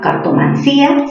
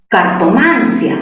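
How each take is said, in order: First: The stress falls on the syllable 'cí'. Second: The stress falls on the syllable 'man'. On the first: "cerrada con mayor fuerza de voz" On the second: "mayor fuerza en man"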